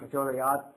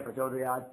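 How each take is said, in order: First: The word ends on a bare, unreleased final consonant. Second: The word ends with an added vowel after the consonant. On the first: The speaker calls it right. "the correct pronunciation" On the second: The speaker calls it wrong. "teachers approximate it"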